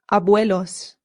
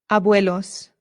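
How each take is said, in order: Both takes have the same delivery.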